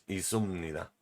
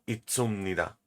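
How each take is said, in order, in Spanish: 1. No se oye ningún sonido t separado antes de la s. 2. Se oye un sonido t claro antes de la s. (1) "Es izumnida" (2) "Es un error muy común pronunciarlo como itzumnida. No, esto es incorrecto"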